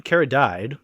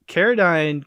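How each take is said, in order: First: "Carradine" ending as "died"; punning mispronunciation. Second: Said in the usual way. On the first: Shown as a demonstration. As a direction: twist the end of "Carradine" into the word died. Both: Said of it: "'cause he's dead now".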